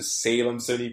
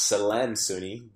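First: The name has an adapted American pronunciation. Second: The name has its original Congolese pronunciation. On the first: This form is easier for people in America. "I changed the pronunciation to Salem Soni because it's much easier" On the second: This is how the name is said at home. "originally I'm from the Congo, so my name is pronounced"

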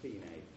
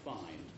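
First: It is said the Italian way, as fee-neh. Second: It is said the English way, rhyming with line.

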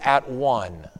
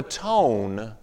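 First: It is split into two separate words. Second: It is said as one smooth word. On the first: To be united in right relationship. "you put the emphasis somewhere else" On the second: To make up for a previous wrong. "you take the word atone"

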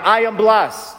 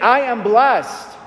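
First: It is said in a plain, calm way. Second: It is said forcefully, with strong conviction. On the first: "Say it with me right now" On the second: "Say it like you mean it"

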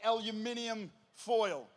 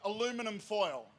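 First: It is said with an Australian pronunciation. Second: It is said with an American pronunciation. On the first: This is how the speaker's country says it. The speaker calls it right. "if you want to learn how to say it properly, you say aluminium foil" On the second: This is how the audience says it. The speaker calls it wrong. "Somebody down here said aluminum foil"

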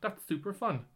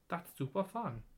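First: It is said in the speaker's normal accent. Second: It is said in a put-on foreign accent.

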